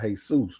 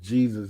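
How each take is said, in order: First: The J at the start is silent. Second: The J at the start is fully sounded. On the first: "and not Jesus" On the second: This is how Americans say it. "Americans call Jesus Jesus"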